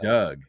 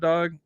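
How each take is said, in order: First: The vowel is a short 'uh' sound. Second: The vowel is an open 'aw' sound. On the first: "I say" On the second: "I don't say dog when I say what's up"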